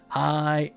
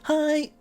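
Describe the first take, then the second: First: It is said plainly, without extra feeling. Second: It is said with a happy, playful lilt.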